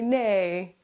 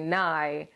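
First: The vowel sounds like 'ay' in 'day'. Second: The vowel sounds like 'eye'. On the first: The speaker calls it wrong. "Don't say Nay, thinking that you're fucking funny" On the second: The speaker calls it right. "I say Nye, like Bill Nye"

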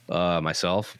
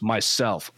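First: It is said in a flat voice. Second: It is said with lively emotion.

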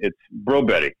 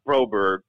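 First: The name is said with Swedish pronunciation. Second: The name is said with American pronunciation. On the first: This is how it is said in the home country. "in Sweden, it's Broberg" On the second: This is how it is usually said in the States. "instead of Broberg"

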